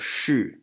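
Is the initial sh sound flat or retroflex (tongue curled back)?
retroflex. The initial sound is retroflex, tongue curled back. This is the standard retroflex pronunciation. "instead of shi"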